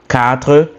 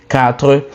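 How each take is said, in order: Both takes have the same delivery.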